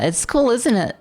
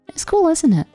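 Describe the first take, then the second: First: The voice is creaky with vocal fry. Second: The voice is smooth without any crackle.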